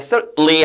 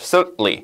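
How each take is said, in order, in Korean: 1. t 소리는 분명하게 발음됩니다. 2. t 소리는 삼켜집니다. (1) "틀린 건 아닌데" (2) "좀 먹는 발음. 이렇게 하는 게 좀 더 일반적이에요"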